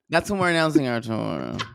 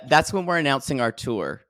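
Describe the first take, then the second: First: It is said with lively enthusiasm. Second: It is said flatly, without enthusiasm.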